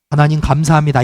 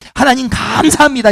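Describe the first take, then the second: First: It is said flatly, without feeling. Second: It is said warmly, with strong feeling.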